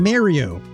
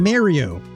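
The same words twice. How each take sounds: First: The name has a New Jersey-style pronunciation. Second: The name has a New Jersey-style pronunciation.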